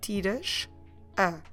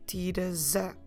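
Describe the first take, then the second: First: The two words are said separately. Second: The two words are run together. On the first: The speaker calls it wrong. "we have the same exact situation" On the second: The speaker calls it right. "We need to run it together"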